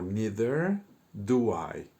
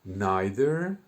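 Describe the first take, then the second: First: "neither" said as NEE-ther, slow and loud; neither pronounced neether. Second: "Neither" said as NAI-ther, rising; Neither pronounced naither. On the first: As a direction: say "neither" with the long e sound. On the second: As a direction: say "Neither" with the long i sound. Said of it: "tengo que poner". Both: Shown as a demonstration.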